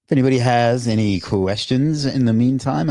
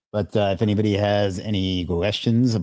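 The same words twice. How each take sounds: First: Upbeat, louder announcer pitch; game show host voice. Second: Said in the usual way. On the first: Real, not acted. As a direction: sell it like a TV quiz host. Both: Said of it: "I'm talking like a game show host today".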